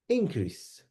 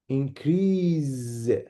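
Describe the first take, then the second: First: The stress is on the first syllable. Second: The stress is on the last syllable. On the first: It is used as a noun. "For the noun, stress ... is on the first part" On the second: It is used as a verb. "about the verb, the last part"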